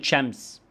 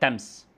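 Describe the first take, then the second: First: The word begins with a hissing 'sh' sound. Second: The word begins with a stopped 't' sound. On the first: "زي كلمة شمس" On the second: "يقول لك تمس"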